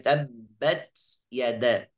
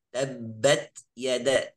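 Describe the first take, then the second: First: The t is released with a hissing s-like sound. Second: The t is released with a light puff of air. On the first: The speaker calls it wrong. "jangan sampai baca dengan suara sin" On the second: The speaker calls it right. "Yang betul apa?"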